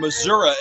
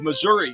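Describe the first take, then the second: First: It is pronounced the way locals say it. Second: It is pronounced in a non-local way.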